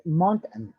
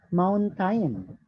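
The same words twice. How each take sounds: First: "mountain" said short as "mown-tn", the second vowel swallowed; "mountain" the natural English way; correct pronunciation. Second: "mountain" said slowly as "mown-tain", both vowels full; "mountain" read the way it is spelled; wrong spelled-out demo. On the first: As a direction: say the right "mountain", clipping the last syllable. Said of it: "it's mountain". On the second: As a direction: show the wrong "mountain", stretching every letter out slowly. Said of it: "not mountain". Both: Shown as a demonstration.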